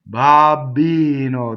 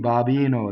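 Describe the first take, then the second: First: The middle B is held long. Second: The middle B is short. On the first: "that's double B" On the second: "that's single B"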